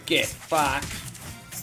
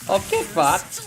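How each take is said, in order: First: It is said angrily, as a real threat. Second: It is said laughingly, as a friendly joke.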